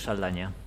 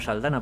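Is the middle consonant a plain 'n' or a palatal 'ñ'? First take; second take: palatal ñ; plain n. First: The middle consonant is a palatal ñ sound. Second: The middle consonant is a plain n sound. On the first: This is the name's original form. "aunque de origen es Saldaña" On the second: This is how it is said in the United States. "allí la presentan como Saldana, porque los pobres no tienen la ñ"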